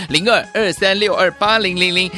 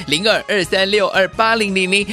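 Both takes have the same delivery.

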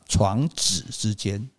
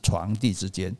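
First: The second syllable does not sound like dì. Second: The second syllable sounds like dì. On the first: The speaker calls it right. "对啦，不是念作床笫啦，不是弟弟的弟了" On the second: The speaker calls it wrong. "不是床笫之间"

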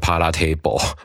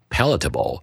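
First: The ending sounds like the full word 'table'. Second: The ending is a short, reduced syllable. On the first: The speaker calls it wrong. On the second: The speaker calls it right.

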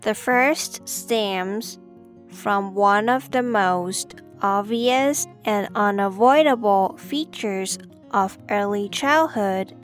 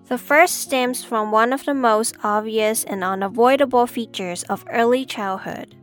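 First: It is said slowly. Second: It is said at normal speed.

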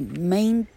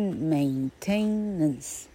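First: The middle syllable is reduced to a weak 'tn'. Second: The middle syllable is a full 'tain' sound. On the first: The speaker calls it right. "而念作maintenance" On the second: The speaker calls it wrong. "它不念maintenance，不是这样念"

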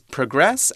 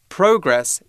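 First: The stress is on the second syllable. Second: The stress is on the first syllable.

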